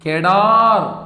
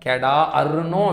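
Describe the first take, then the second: First: The long vowel is stretched smoothly in one word. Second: The vowel is split into two separate sounds. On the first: The speaker calls it right. "அப்படிதான் படிக்கணும்" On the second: The speaker calls it wrong. "அப்படின்னோ படிக்க கூடாது"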